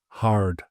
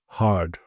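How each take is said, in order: First: The R is pronounced after the vowel. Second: The same.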